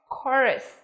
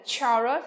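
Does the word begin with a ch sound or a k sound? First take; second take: k; ch. First: The word begins with a k sound. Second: The word begins with a ch sound. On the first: The speaker calls it right. "mà phải là gì?" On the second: The speaker calls it wrong. "không phát âm là chờ như là chaos này, hay là chorus"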